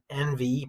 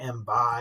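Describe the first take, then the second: First: It is said the ordinary modern way. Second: It is said in an older way.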